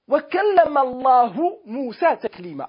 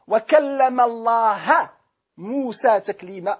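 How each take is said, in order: First: The word Allah ends with a 'u' vowel. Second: The word Allah ends with an 'a' vowel. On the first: God spoke to Moses. "Aber Allahu, wie es im Koran steht" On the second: Moses spoke to God. "Allah und nicht Allahu"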